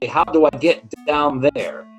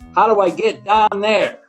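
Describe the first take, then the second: First: It is said in a standard accent. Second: It is said in a Pittsburgh accent.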